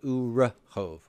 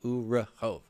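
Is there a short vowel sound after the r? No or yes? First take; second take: Yes; Yes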